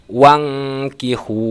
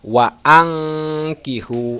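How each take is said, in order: First: The hamzah is dropped and the sounds run together. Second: The hamzah is sounded with its own vowel. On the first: The speaker calls it wrong. "Tidak boleh dibaca wangkihu" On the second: The speaker calls it right. "Harus dibaca wa angkihu"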